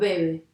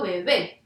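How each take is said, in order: First: The stress is on the first syllable. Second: The stress is on the last syllable. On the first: The speaker calls it wrong. "no digo bebe" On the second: The speaker calls it right. "Yo digo bebé"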